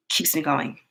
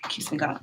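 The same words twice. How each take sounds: First: Said in the usual way. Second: Whispered, much softer; trailing whisper to herself; soft whispered echo. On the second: Real, not acted. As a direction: breathe the repeat to yourself as a whisper.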